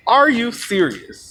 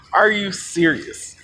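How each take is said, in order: First: Higher, slow incredulous question; emphatic disbelief. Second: Slow incredulous question; drawn-out disbelief. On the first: Storyteller repeating the question, appalled, higher and slower disbelief. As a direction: push the disbelief higher, drawing out each word. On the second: Storyteller appalled at advice to drink more, slow incredulous question. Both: Retold or imitated.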